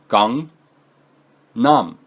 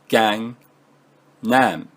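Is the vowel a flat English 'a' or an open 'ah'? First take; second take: open ah; flat a. First: The vowels are an open 'ah' sound. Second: The vowels are a flat English 'a' sound. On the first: The speaker calls it right. "how it should be said though in Korean" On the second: The speaker calls it wrong. "and not"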